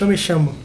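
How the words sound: It is said in the Argentine way. "Eles falam yo me chamo, muito provavelmente como um galego falaria"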